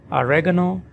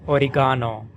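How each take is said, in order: First: Oregano as "a-REG-a-no", reg stressed; American oregano, REG stressed. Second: Oregano as "o-ri-GAH-no", ga stressed; British oregano, GA stressed. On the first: Teacher contrasting oregano in American English, reg stressed. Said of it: "So in American English". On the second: Teacher contrasting oregano in British English, ga stressed. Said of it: "in British English". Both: Shown as a demonstration.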